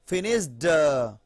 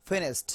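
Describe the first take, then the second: First: "ফিনিশড" with a heavy drawn-out "duh"; forced D ending. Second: "ফিনিশড" said "finisht", crisp T; T ending. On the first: Teacher showing what is hard to say, forced D on "ফিনিশড". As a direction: push a voiced D out after "ফিনিশড". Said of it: "ড আসবে না". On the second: Teacher modelling the easy way, T at the end of "ফিনিশড". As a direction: finish "ফিনিশড" on a light unvoiced T. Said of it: "ঠ এর মতো ভাব চলে আসতেছে". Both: Shown as a demonstration.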